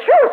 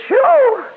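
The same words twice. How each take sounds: First: Said in the usual way. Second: Sudden much higher, louder "Sure"; squeaked sure. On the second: Retold or imitated. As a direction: pop it up into a high yelp. Retold joyful answer.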